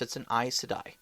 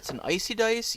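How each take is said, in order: First: The name is pronounced in the standard way. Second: The name is pronounced in a garbled way. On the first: The game master gently corrects the player. The speaker calls it right. "Just just subtly correct them" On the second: A player gets the term slightly wrong. The speaker calls it wrong. "Or if they're they're saying it wrong"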